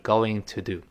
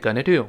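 First: It is said slowly with 'going to' in full. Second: It is said quickly and reduced to 'gonna'. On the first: "但读得很慢的时候，慢慢说还是going to do" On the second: "所以读得很快叫What are you gonna do?"

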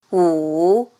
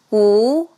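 First: The pitch dips low, then rises. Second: The pitch rises from mid to high. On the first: "三声拐弯" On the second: "二声扬"

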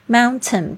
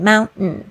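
First: The t before n is fully pronounced. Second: The t before n is weakened. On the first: "mountain 变成mountain" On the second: "通常有n 的声音出现的时候t 会有弱化的趋势"

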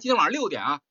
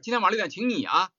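First: The stress is on 六点. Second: The stress is on 你.

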